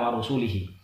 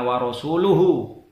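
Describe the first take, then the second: First: The word ends with the vowels i-hi. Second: The word ends with the vowels u-hu. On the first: God disowns the idolaters and the Messenger. The speaker calls it wrong. "membaca annallaha bariun minal musyrikina wa rasulihi" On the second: The Messenger also disowns the idolaters. The speaker calls it right. "Mestinya wa rasuluhu"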